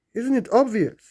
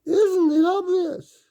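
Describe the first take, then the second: First: Emphatic. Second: Much higher, slower and louder isn't it obvious, squeaked out; cartoonish high-pitched emphasis; shrill exaggerated. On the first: Acted. Rhetorical question, then repeated. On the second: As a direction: overdo the question like a mocking squeal. The repeat, exaggerated.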